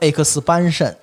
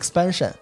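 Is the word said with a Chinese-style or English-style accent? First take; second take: Chinese; English. First: The stressed vowel sounds like Mandarin 'ban'. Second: The word is said with English-style vowels.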